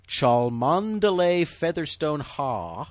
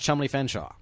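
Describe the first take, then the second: First: Every written syllable of the name is sounded out. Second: The name is squeezed into four short syllables. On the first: The speaker calls it wrong. "it says Cholmondeley Featherstone Haw" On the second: The speaker calls it right. "it's pronounced Chumley Fenshaw"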